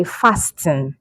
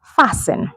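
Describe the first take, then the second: First: "fasten" as FAST-en, t sounded; wrong pronunciation. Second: "fasten" as FASS-en, no t; silent T. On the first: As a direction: click the t in "fasten". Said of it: "we don't say fasten". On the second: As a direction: slide from s to n in "fasten". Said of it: "So we say fasten". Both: Shown as a demonstration.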